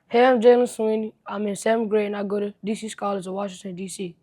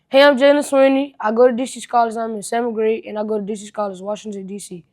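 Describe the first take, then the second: First: It is said faster, softer and calmly. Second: It is said slower, louder and excitedly.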